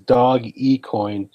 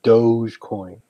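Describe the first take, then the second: First: The first part is said as two syllables. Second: The first part is said as one syllable. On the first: The speaker calls it right. "It is dog e coin" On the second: The speaker calls it wrong. "It's not Doge coin"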